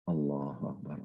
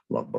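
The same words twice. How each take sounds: First: It is said slowly with deep feeling. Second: It is said quickly and mechanically.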